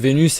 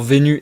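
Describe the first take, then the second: First: The final S is pronounced. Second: The final S is silent. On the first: The word does not rhyme with nu. "Vénus et nu, ça rime pas" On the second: The word rhymes with nu as the poet intended. "je suis obligé de dire Vénu et nu"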